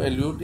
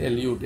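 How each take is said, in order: The two takes are said the same way.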